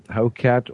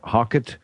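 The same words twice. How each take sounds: First: HOCAT said as HOE-cat; long O in Hocat, clear "cat" ending; alternative pronunciation. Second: HOCKET said as HOCK-it; short open vowel in Hocket, reduced "it" ending; alternative pronunciation. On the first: Host trying both names of the device, alternative pronunciation. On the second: Host unsure of the device's name, alternative pronunciation. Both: Shown as a demonstration. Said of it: "my pronunciation is a little".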